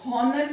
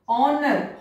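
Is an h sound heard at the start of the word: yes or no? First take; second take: yes; no. First: The word begins with an audible h sound. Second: The word begins with a vowel, no h sound. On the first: The speaker calls it wrong. "हॉनर नहीं बोला जाता है" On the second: The speaker calls it right. "ऑनर बोला जाता है, तो यहां पर एच साइलेंट है"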